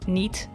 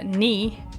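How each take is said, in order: First: The word ends with a clear final t sound. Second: The word ends without a final t sound.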